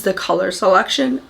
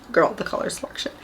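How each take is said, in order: First: Said in the usual way. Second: Whispered emphasis. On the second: Real, not acted. Repeats phrase for emphasis.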